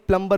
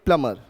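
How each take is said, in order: First: The b after the m is pronounced. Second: The b after the m is silent. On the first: The speaker calls it wrong. "प्लम्बर नहीं" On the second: The speaker calls it right. "बी silent होता है"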